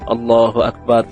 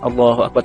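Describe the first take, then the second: First: It is said slowly and carefully. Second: It is said quickly and hurriedly.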